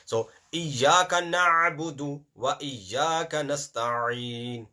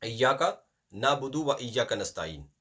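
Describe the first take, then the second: First: Slow, na'budu and nasta'in with a clear throaty ayn; correct pronunciation with ayn. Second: Na'budu and nasta'in said with no ayn sound; wrong pronunciation. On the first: Teacher giving the correct sound slowly. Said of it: "Ayn is very important". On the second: Teacher showing the mistake of dropping the ayn. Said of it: "There is no ayn there". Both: Shown as a demonstration.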